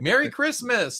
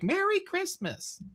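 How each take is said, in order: First: It is said in his ordinary voice. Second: It is said in a put-on feminine voice. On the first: "I'm like" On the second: "it's totally not me changing my voice into a feminine voice"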